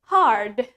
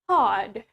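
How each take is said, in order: First: It is said in an American English accent. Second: It is said in a British English accent.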